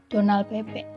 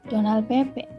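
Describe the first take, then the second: Both takes have the same delivery.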